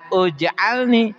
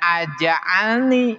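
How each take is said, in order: First: The word begins with a u vowel. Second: The word begins with an a vowel. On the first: "jangan uj'alni" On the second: "jangan aj'alni"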